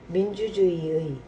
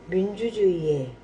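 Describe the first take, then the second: The two takes are said the same way.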